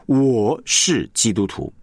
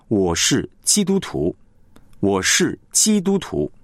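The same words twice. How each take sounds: First: Slow, weight on 我; 重音在我; stress on 我. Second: Slow, weight on 基督徒; 重音在基督徒; stress on 基督徒. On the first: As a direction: lean on 我, keep 基督徒 light. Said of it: "那个重点是在“我”了". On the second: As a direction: press 基督徒 as the identity. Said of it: "你是强调的那个基督徒". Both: Shown as a demonstration.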